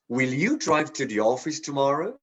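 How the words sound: The stress falls on the word you. The question is about this person specifically. "emphasize the you"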